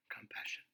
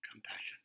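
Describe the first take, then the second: First: Soft repeated. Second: Soft compassion. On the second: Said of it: "But first". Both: Real, not acted.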